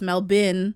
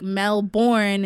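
First: The second syllable is reduced to 'bin'. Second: The second syllable is a full 'born'. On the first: This is how locals say it. The speaker calls it right. "in Australia, ... It's Mel Bin" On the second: This is how outsiders say it. The speaker calls it wrong. "we'll say born like Jason Bourne"

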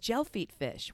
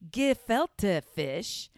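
First: The first word sounds like 'gel-feet'. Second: The first word sounds like 'ge-fil-te'. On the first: The speaker calls it wrong. "I didn't even know how to pronounce it" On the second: The speaker calls it right. "It's not gelfeet fish"

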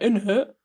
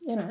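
First: It is said with an exaggerated put-on accent. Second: It is said plainly, in the speaker's own accent. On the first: The speaker calls it wrong. "That's what you're saying, you're like" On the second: The speaker calls it right. "just in it, not in it"

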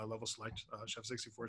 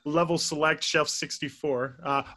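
First: It is said at a quicker, normal pace. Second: It is said more slowly and deliberately.

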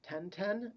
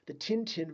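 First: It is said with a French pronunciation. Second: It is said with an English pronunciation.

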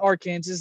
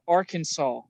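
First: The word ends with a clear s sound. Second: The word ends with an aw sound. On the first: The speaker calls it wrong. "that's not Arkansas" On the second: The speaker calls it right. "that is Arkansas"

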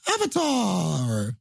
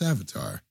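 First: The word is said loudly with excitement. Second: The word is said flatly without excitement. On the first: The audience was thrilled by the preview. "But it wasn't like" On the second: The audience merely recognized it without enthusiasm. "It was just like"

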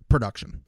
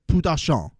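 First: It is said in his own unaccented voice. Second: It is said with a put-on Spanish accent.

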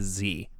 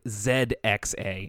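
First: The letter is said as zee. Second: The letter is said as zed. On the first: This is the American way of saying it. "as an American" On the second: This is the British way of saying it. "that's what we do over here"

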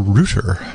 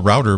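First: It is said the British way. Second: It is said the American way.

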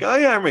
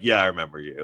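First: It sounds light, friendly and cheerful. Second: It sounds flat, knowing and ominous.

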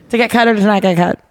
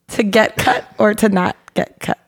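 First: The phrase is said quickly, like a tongue twister. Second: The phrase is said at a normal speed.

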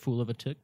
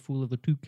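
First: The last word rhymes with book. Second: The last word rhymes with duke. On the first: The speaker calls it right. "that's the cool phrase" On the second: The speaker calls it wrong. "Sounds like you're saying it weird"

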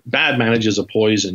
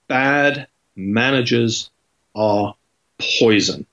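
First: It is said flatly without emphasis. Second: It is said with strong emphasis.

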